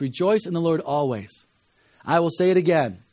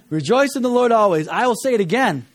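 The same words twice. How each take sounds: First: It is said flatly, without joy. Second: It is said joyfully, with real rejoicing.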